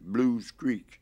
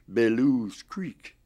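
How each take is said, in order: First: The first word is said with one syllable. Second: The first word is said with two syllables. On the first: This is how the local people say it. "in this town call it Blues Creek, B as B L U E S, and that's the way they pronounced it" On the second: This is how outsiders from the North say it. "so we would call that B E L E W S, Bellews Creek"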